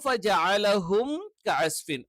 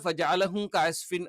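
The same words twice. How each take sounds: First: The m is fully completed before the k. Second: The m is cut short and runs into the k. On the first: The speaker calls it right. "മീമ് കറക്റ്റ് ആയിട്ട് പൂർത്തിയായിട്ട് ഉച്ചരിക്കണം" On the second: The speaker calls it wrong. "മീമ് കംപ്ലീറ്റ് ആവില്ല, ... കായിലോട്ട് അതങ്ങ് ചേർന്നു പോകും"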